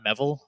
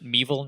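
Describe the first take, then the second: First: The first vowel is a short eh sound. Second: The first vowel is a long ee, like evil. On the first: The speaker calls it wrong. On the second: The speaker calls it right. "that is how you pronounce it"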